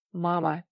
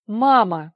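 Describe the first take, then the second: First: Gentle, unhurried appeal to mother; soft address. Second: Loud, alarmed call to mother; agitated cry. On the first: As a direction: address your mother mildly and calmly. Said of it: "мягко обратился Николай". (мягкое обращение) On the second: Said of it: "взволнованно вскрикнул Николай". (взволнованный громкий вскрик) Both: A narrator's reading.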